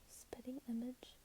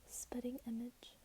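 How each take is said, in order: No difference in how they are said.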